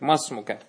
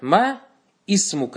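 First: The initial i is dropped, joining into masmuka. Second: The initial i of ismuka is pronounced separately. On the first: The speaker calls it right. "Масмука надо говорить" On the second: The speaker calls it wrong. "Это неправильно"

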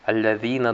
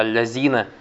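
First: The middle consonant has the tongue between teeth. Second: The middle consonant is a plain z sound. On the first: The speaker calls it right. "должен говорить" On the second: The speaker calls it wrong. "вместо «Аль-Лазина»"

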